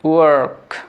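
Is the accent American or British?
American. An American accent with the r sound pronounced. "American অ্যাকসেন্টে বলার চেষ্টা করেন ওয়ার্ক"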